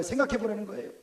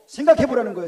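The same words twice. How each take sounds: First: Said in the usual way. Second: Emphatic louder. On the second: Acted. Repeated for emphasis.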